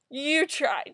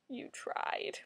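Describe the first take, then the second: First: Said in the usual way. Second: Hushed, voiceless whisper; very soft, all breath. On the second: Real, not acted. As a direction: whisper it as faint consolation. Consoling remark repeated in whisper.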